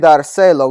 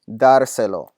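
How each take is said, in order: First: The stress is on the second syllable. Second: The stress is on the first syllable. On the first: The speaker calls it wrong. "now my natural accent is on my second to last syllable" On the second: The speaker calls it right. "we want to say dárselo"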